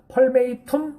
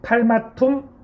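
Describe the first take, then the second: First: The second syllable sounds like 'may'. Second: The second syllable sounds like 'ma'. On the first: The speaker calls it wrong. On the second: The speaker calls it right.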